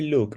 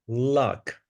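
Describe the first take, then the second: First: The vowel is the 'oo' sound of 'look'. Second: The vowel is the short 'u' of 'luck'. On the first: The speaker calls it wrong. "you don't say look" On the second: The speaker calls it right. "We we have pronounced the word many, many times"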